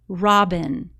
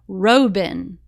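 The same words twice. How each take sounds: First: The first vowel is a short o sound. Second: The first vowel is a long o sound. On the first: This reading is a real, familiar word. The speaker calls it right. "when the B closes in the O, it makes it short sound" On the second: This reading is not a word the reader knows. The speaker calls it wrong. "this would make the first syllable open and it would say Robin"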